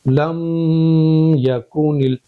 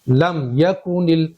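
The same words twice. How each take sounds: First: The m sound is held for a long time. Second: The m sound is said quickly and briefly. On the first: The speaker calls it wrong. "ऐसे नहीं पढ़ेंगे" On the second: The speaker calls it right. "इस तरह से पढ़ेंगे"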